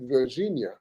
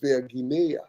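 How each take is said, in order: First: The middle consonant is a soft j sound. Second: The middle consonant is a hard g sound. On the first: This is the usual way people say the name. The speaker calls it wrong. "we call it Virginia" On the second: The name comes from Ver and Guinea. The speaker calls it right. "but it's Virginia"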